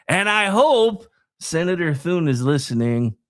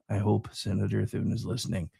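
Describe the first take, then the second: First: Pointed, carrying voice with "hope" punched; emphatic hope. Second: Low, soft repeat under the breath; much softer and lower, almost to oneself; quiet pointed aside. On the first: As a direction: lean hard on "hope". Repeats the hope, then drops it low. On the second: Same hope repeated as a quiet aside. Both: Real, not acted.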